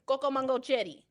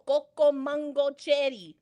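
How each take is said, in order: First: "Coco mango cherry" run together; as one word. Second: Slow, spelled-out "Coco mango cherry"; word by word. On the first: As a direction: join "Coco mango cherry" without any breaks. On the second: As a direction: give "Coco mango cherry" slowly, each word distinct. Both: Shown as a demonstration. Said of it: "One word".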